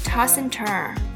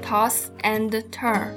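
First: The words run together like one word. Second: Each word is said separately with breaks between. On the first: The speaker calls it right. "整个短语连起来就变成了" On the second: The speaker calls it wrong. "不要读toss and turn，听起来非常难听"

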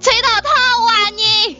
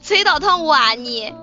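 First: It is said more loudly. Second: It is said at normal, quieter volume.

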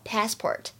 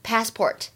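First: American accent, with a flat vowel and an r. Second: The same.

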